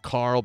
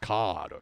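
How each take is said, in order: First: It is said in a plain English accent. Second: It is said in a thick Japanese accent.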